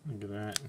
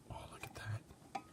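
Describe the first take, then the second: First: Said in the usual way. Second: Breathy unvoiced whisper of delight. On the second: Shown as a demonstration. Whispering to viewers over the craft table. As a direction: hush it like a secret.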